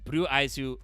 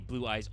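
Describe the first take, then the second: First: It is said with Japanese-style added vowels. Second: It is said with plain English pronunciation.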